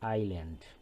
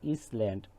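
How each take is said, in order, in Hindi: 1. इस शब्द में s की कोई ध्वनि नहीं है। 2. इस शब्द में s की ध्वनि होती है। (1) "এস উচ্চারণ হবে না" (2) "এটাকে ইসল্যান্ড করা যাবে না"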